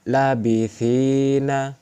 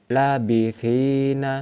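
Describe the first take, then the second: First: The first vowel is held long. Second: The first vowel is held long.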